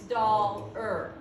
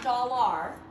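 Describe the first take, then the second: First: The last syllable is reduced to 'er'. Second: The last syllable has a full 'ar' vowel. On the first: The speaker calls it right. "it's dollar. ... it's a schwa, and it's going to say er" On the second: The speaker calls it wrong. "This is not dollar"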